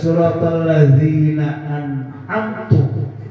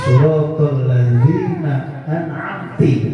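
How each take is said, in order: First: The word an'amt- ends with a u vowel. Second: The word an'amt- ends with an i vowel. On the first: The favor is attributed to the speaker, a creature. "Menjadi berubah menjadi anak" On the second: The favor is attributed to a female creature. "domirnya menjadi apa? Anti"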